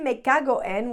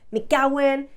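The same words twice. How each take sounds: First: Each word is said separately and distinctly. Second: The words run together into one unit. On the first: The speaker calls it wrong. "we never say me cago en" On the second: The speaker calls it right. "we join it together and we say me cago en"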